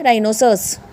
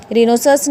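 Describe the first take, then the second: First: Rhinoceros starting "rye-no", H silent; correct pronunciation. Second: Rhinoceros starting "ree-no"; wrong pronunciation. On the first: Teacher correcting students, "rye-noserus" pronunciation. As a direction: say rhinoceros with RYE for the first syllable. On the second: Teacher showing students the mistake, "reenoserus" mispronunciation. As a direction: say rhinoceros with REE for the first syllable. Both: Shown as a demonstration. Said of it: "rhinoceros नहीं होगा".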